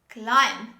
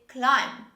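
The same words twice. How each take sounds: Both takes have the same delivery.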